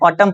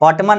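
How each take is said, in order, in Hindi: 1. शब्द के आख़िर में n बोला नहीं जाता। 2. शब्द के आख़िर में n बोला जाता है। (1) "ऑटम पढ़ना है" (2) "ऑटमन नहीं पढ़ना है"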